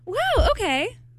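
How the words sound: It sounds warm and supportive.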